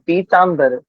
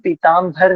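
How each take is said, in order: First: The middle consonant is a plain 'b' sound. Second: The middle consonant is an aspirated 'bh' sound. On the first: The speaker calls it right. "ब का उच्चारण करें ना कि भ का उच्चारण" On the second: The speaker calls it wrong. "हम पीताम्बर ना बोले"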